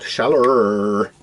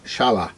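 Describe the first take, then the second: First: The word ends with an r-coloured 'er' sound. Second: The word ends without an r-coloured sound. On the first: This is the local Devon pronunciation. The speaker calls it wrong. "which is how I say it, based down here in Devon, where everything's got a er on it" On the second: This is the original German pronunciation. The speaker calls it right. "correctly pronounced Shala"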